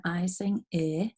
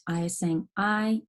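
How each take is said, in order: First: Final "I" pronounced ih, as in "in"; short vowel sound. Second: Final "I" pronounced like the letter's name; long vowel sound. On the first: Teacher sounding out a closed syllable, short vowel sound. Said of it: "it's a closed syllable". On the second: Teacher sounding out vowel consonant E, long vowel sound. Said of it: "a vowel consonant E". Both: Shown as a demonstration.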